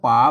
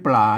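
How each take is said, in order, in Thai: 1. คำนี้ขึ้นต้นด้วยเสียง p เดี่ยว 2. คำนี้ขึ้นต้นด้วยกลุ่มเสียง pl (1) "เปิ่นอ่านว่าป๋า" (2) "ไม่ใช่ปลานะครับ"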